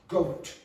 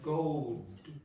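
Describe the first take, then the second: First: The final sound ends with a puff of air. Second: The final sound is soft with no puff. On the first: The speaker calls it right. "do it again, but aspirate" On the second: The speaker calls it wrong. "She did not aspirate, so she went goad"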